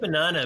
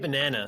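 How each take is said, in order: First: Banana is said with a New Zealand accent. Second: Banana is said with an American accent. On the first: "we say banana" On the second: "but you say banana"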